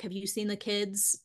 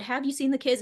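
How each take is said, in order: First: Said in the usual way. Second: Put-on "have you seen the kids" asked with more push; repeated question. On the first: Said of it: "very innocuous". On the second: Wife asking husband the question again, insistent "have". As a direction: press on "have", pitch lifted a little. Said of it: "I asked it again".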